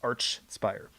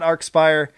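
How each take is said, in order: First: The name begins with a ch sound. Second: The name begins with a hard k sound. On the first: The speaker calls it right. "with the ch sound" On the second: The speaker calls it wrong. "not the k sound"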